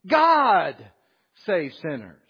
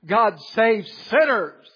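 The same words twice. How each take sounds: First: The word God is stressed. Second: The word sinners is stressed.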